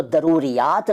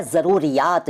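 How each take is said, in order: First: दरूरियात with a d first. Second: Said in the usual way. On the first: Shown as a demonstration. Teacher showing what is not said, दरूरियात with d for z. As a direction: say दरूरियात, d replacing z. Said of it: "नहीं कहते". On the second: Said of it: "दरूरियात नहीं कहते".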